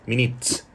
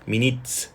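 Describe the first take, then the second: Both takes have the same delivery.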